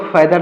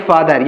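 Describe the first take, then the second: First: फैदर opening on "fai", front vowel; mispronounced father. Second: फादर opening on a long "faa"; correct father pronunciation. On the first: Teacher repeats what not to read, mispronounced फैदर. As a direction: give फैदर the wrong "ai" vowel of "fad". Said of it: "इसको फैदर ना पढ़ेंगे". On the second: Teacher repeats how to read it, correctly pronounced फादर. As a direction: give फादर its open "aa" vowel. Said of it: "इसको पढ़ेंगे फादर". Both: Shown as a demonstration.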